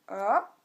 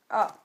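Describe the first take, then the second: First: The pitch rises from middle to high. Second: The pitch drops sharply from high to low. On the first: "le deuxième ton, il monte comme ça" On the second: "le quatrième ton, il est descendant"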